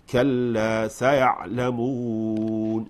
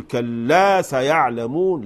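First: كلا سيعلمون slow and measured; correct recitation. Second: كلا سيعلمون pushed and louder; wrong reading. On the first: Teacher modelling the right recitation. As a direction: draw out كلا سيعلمون gently. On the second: Teacher imitating the wrong way of reading. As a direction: hammer كلا too hard. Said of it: "ما نقول كلا سيعلمون". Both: Shown as a demonstration.

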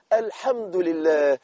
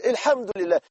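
First: Slow grateful praise. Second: Said in the usual way. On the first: Shown as a demonstration. Preacher showing the sick how to say thanks, slowly. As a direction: savor each word of thanks. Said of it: "ولكن حولها بس كده". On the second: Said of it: "كل ألم تقول".

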